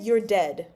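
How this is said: It is said calmly, ending flat.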